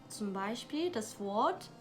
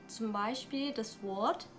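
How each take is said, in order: Both takes have the same delivery.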